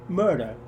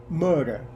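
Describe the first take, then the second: No difference in how they are said.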